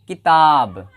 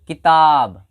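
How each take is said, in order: First: The first vowel is short, the second long. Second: The same.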